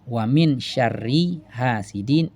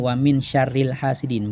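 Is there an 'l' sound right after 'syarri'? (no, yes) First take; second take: no; yes. First: No 'l' sound comes between 'syarri' and 'hasidin'. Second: An 'l' sound links 'syarri' to 'hasidin'. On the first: The speaker calls it right. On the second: The speaker calls it wrong.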